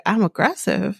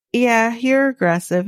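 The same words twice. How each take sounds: First: Retold challenge, sharply rising at the end; questioning echo. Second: Mildly snippy retelling, a little higher; retold accusation with a touch of attitude; attitude-y retort. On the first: Woman challenging his accusation, retold questioning echo. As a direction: throw it back as a questioning echo. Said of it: "And she's like". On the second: Man retelling-style jab at her for being aggressive, mild attitude. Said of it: "got a little attitude-y with her".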